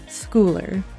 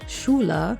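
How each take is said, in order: First: The name is said with an English pronunciation. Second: The name is said with a German pronunciation. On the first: The speaker calls it right. "It is Schooler" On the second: The speaker calls it wrong. "I want to pronounce it with a German accent"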